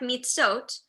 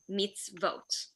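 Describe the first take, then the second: First: There is no v sound before the o. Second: A v sound comes before the o. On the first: The speaker calls it wrong. "it kind of looks like mitzot, but there are ways that we know that it's not" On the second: The speaker calls it right. "there has to be some sort of consonant before the O. So it has to be a vav"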